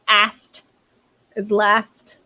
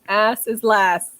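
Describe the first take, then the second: First: The first word ends in an added T sound. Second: The first word ends in a plain S sound.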